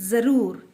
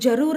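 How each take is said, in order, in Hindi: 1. इस शब्द की शुरुआत z की आवाज़ से होती है। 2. इस शब्द की शुरुआत j की आवाज़ से होती है। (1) "ये नुक्ता लगाने से उसका प्रोनाउंसिएशन चेंज होता है" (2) "इसको हम जरूर नहीं बोलते"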